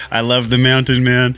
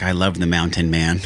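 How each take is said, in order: First: Higher and louder, a fond mock of her voice; playful imitation of his lady. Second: Said in the usual way. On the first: Man mimicking his lady's praise, higher and louder. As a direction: echo his partner's delight, hammed up a little. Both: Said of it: "She's like".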